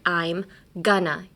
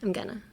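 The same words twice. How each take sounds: First: Each word is said carefully and distinctly. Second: It is thrown out lazily, like a tired teenager.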